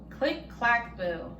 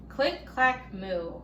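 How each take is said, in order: Both takes have the same delivery.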